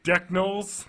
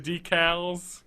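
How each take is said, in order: First: "Decknolls" slowly, as deck-knolls; Ricky's mispronunciation. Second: Said in the usual way. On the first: Retold or imitated. Host listing Ricky's botched words, "Decknolls" said slowly as deck-knolls. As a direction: draw out "Decknolls" with an n after the k. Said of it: "Decknolls instead of decals". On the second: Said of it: "instead of decals".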